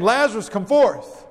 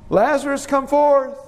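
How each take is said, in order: First: Firm order, falling at the end; command. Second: High, lilting summons held on a raised pitch; calling. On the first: Preacher demonstrating how Jesus may have ordered Lazarus out, commanding. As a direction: give it as a direct command. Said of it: "Or like a command". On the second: Preacher demonstrating how Jesus may have called Lazarus, calling. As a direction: call out to someone some way off. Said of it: "Was it like a call?". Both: Shown as a demonstration.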